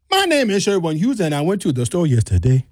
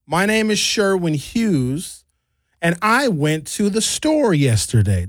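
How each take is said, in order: First: Nigerian accent starting high, then dropping. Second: Flat even American reading, pitch barely moving; monotone American. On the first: Showing friend how Nigerians start high, Nigerian accent. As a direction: open high and sing-song in a Nigerian lilt. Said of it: "A Nigerian will start very, very high". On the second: Demoing how Americans talk, monotone. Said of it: "That's how I would say it". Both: Shown as a demonstration.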